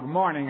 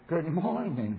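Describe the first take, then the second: First: It is said in an ordinary everyday voice. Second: It is said with a put-on religious lilt. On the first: It is an everyday greeting. "I say to Hal" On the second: Spiritual life is kept in a separate compartment. "they change their tone of voice"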